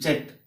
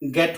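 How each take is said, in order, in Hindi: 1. शब्द की शुरुआत j ध्वनि से होती है। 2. शब्द की शुरुआत हार्ड g ध्वनि से होती है। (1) "न कि जेट" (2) "इसका उच्चारण गेट होता है"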